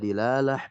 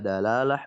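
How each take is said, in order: First: The first syllable has an i vowel. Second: The first syllable has an a vowel. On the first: "Bisa dilalah" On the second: "bisa dalalah"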